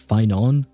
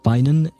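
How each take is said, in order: First: The final vowel is drawn out longer. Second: The final vowel is short. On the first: The speaker calls it wrong. "I keep pronouncing it Finon" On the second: The speaker calls it right. "supposed to be pronounced Finan"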